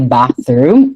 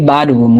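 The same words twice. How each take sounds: First: The middle sound is pronounced as a TH. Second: The middle sound is pronounced like a D. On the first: The speaker calls it right. "we say bathroom" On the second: The speaker calls it wrong. "do not pronounce it like a D"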